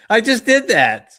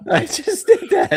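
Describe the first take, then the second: First: High loud disbelief; realizing with a laugh; amazed realization. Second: Very high, laughing, slowed; laughing disbelief. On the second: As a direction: crack up in disbelief. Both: Real, not acted. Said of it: "Oh my God".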